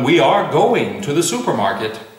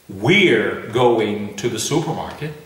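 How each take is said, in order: First: The words are said fully, we are separately. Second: The words are contracted, we're instead of we are. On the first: The speaker calls it right. "I normally say to everyone" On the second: The speaker calls it wrong. "I hardly ever say"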